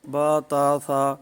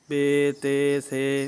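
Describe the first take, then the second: First: Each letter name ends in a short a vowel. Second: Each letter name ends in an e vowel. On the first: The long vowel of the Arabic name is dropped. "मजहूल तरीका ... ये अलिफ मद्दा जो है नहीं पढ़ा जा रहा" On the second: This is the Urdu school pronunciation. "इस तरह का ये उर्दू तलफ़्फ़ुज़ है"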